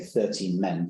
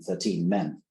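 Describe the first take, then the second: First: The stress is on the first syllable of thirteen. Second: The stress is on the second syllable of thirteen. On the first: The speaker calls it right. "we would tend to say" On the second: The speaker calls it wrong. "rather than"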